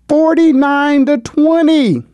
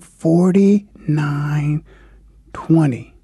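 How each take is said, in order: First: It is said at a normal speed. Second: It is said slowly and deliberately.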